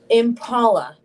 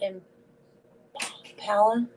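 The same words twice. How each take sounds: First: The middle syllable sounds like 'paw'. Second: The middle syllable has a vowel unlike 'paw'. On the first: The speaker calls it right. "That's paw. Like paw. ... That's how I would say it" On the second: The speaker calls it wrong. "not Impala"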